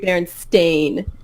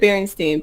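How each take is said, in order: First: The last syllable sounds like 'stain'. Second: The last syllable sounds like 'steen'. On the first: The speaker calls it right. "it's like supposed to be Berenstain" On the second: The speaker calls it wrong. "I always said Berenstein"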